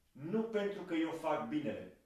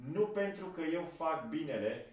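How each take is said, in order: Both takes have the same delivery.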